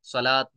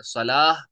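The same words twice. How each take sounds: First: सलात closed with an audible t; wrong t ending. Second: सलाह loud, ending in a breathed h; h ending at pause. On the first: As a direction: end सलात on a clear t sound. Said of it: "सलात नहीं पढ़ना है". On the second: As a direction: drop the t and let सलाह end on an h. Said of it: "सलाह पढ़ना है". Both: Shown as a demonstration.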